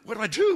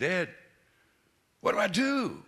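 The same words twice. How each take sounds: First: Higher and louder, rising at the end; desperate repeat. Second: Retold desperate plea. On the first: Retold or imitated. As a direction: ask again, more frantic and pleading, voice climbing on do. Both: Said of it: "I'm kinda desperate".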